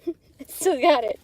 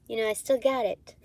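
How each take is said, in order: First: Laughing brag, a bit higher. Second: Said in the usual way. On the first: Real, not acted. Bragging to viewers through a laugh. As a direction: gloat with a laugh.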